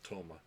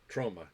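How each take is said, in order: First: No r sound follows the first consonant. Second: An r sound follows the first consonant. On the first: The speaker calls it wrong. "not Toma" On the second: The speaker calls it right.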